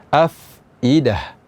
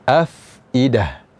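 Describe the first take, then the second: Both takes have the same delivery.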